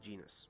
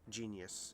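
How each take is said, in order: First: The name is said as two syllables, Genis. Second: The name is said like the word genius. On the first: This is the English localized name. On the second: This is the original Japanese name.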